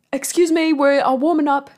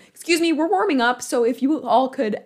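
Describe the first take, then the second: First: Loud, high, badly faked British accent; Daniel Craig. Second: Imitated announcement in own accent, high and loud; accent dropped. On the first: Actor shooing sponsors during warm-up, imitated in a poor British accent. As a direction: project a botched British accent from the stage. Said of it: "should I do his accent?". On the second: Actor addressing people in the house, retold loudly without the accent. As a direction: project it without putting on the accent. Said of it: "I'm not gonna do it".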